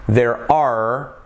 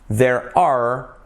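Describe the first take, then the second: No difference in how they are said.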